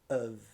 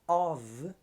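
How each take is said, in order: First: The word is said with a weak schwa vowel. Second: The word is said with its full vowel.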